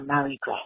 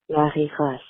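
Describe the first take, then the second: First: The name is said with an American accent. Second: The name is said with a French accent.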